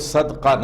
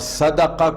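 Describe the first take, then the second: First: No vowel follows the middle consonant. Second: A short vowel follows the middle consonant. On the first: The speaker calls it wrong. "सदका न पढ़िए" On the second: The speaker calls it right. "सदका को"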